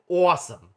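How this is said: The word is said in a punchy, emphatic way. The speaker is in a lively, playful mood. "if I'm feeling particularly punchy"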